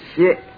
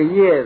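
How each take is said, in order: First: The syllable is pronounced 'xie'. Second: The syllable is pronounced 'ye'. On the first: This is the customary Buddhist reading of the character. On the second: This is the everyday reading of the character.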